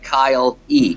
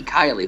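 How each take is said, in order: First: "Kyle E" as two separate words, KYLE then EE; misread name. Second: Said in the usual way. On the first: Retold or imitated. Actor recalling how he misread an unknown name, "Kyle E" split in two. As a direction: split "Kyle E" into Kyle plus a long letter E. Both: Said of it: "I'm thinking, like".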